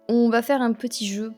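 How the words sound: It is said with a slight Marseille accent.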